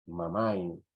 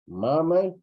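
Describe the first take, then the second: First: "mamay" at ordinary pitch, falling at the end; second contrasted word. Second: "Mamay" high and loud, pushed out firmly; one of two contrasted words. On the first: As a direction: let "mamay" drop gently after the contrast. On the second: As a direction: call out "Mamay" on a raised pitch. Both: Shown as a demonstration. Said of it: "Son dos palabras".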